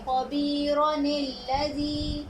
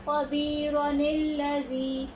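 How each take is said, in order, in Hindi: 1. दोनों शब्द आपस में मिल जाते हैं, बीच में 'ni' की आवाज़ जुड़ती है। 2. दोनों शब्द आपस में मिल जाते हैं, बीच में 'ni' की आवाज़ जुड़ती है।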